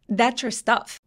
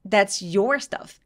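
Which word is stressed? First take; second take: stuff; your. First: The stress falls on the word stuff. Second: The stress falls on the word your. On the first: The focus is on the things, which should be taken. "이러면 물건에 포커스를 두고" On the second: The focus is on whose things they are. "야, 그거 네 거잖아 라고 하고 싶다면"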